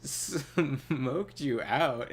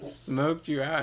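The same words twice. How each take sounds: First: Slow, drawn-out disbelieving question; incredulous repeat. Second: Plain statement, leaning in, a bit louder; explaining with a gesture. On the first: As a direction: stretch each word out in disbelief. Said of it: "I was like". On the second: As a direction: spell it out for him. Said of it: "I made a gesture like". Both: Retold or imitated.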